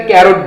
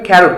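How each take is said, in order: First: ক্যারট with an unaspirated K; common mispronunciation. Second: ক্যারট with an aspirated K, "kh"; correct pronunciation. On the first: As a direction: start ক্যারট with a plain k, no puff of air. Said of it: "অনেকে". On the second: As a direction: start ক্যারট with a puff of air, "kh". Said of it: "right pronunciation". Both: Shown as a demonstration.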